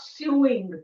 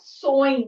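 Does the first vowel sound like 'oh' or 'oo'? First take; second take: oo; oh. First: The first vowel sounds like 'oo', as in 'sue'. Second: The first vowel sounds like 'oh', as in 'so'. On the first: The speaker calls it wrong. "not sewing" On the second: The speaker calls it right. "ये word को हम कैसे pronounce करते हैं sewing"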